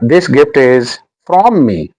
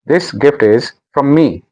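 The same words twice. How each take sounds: First: The word 'from' is full and stressed. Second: The word 'from' is weak and unstressed. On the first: The speaker calls it wrong. "आपने ये नहीं कहना" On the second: The speaker calls it right. "No"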